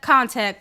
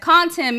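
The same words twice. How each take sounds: First: "contact" said instead of "content"; mispronounced. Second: "content" said correctly, a bit higher; self-correction. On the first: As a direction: slip into "contact" with a hard second syllable. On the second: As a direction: fix the word to "content". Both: Real, not acted.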